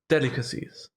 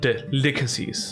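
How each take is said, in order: First: The stress falls on the first syllable. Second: The stress falls on a later syllable. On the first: The speaker calls it right. "you put the pressure on de" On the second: The speaker calls it wrong.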